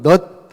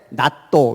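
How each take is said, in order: First: It is one short syllable ending in t. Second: It has two syllables with an open vowel. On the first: The speaker calls it right. "영어로는 넛 하면 되잖아" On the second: The speaker calls it wrong. "일본 애들은 뭐라 그래? 나또 이래"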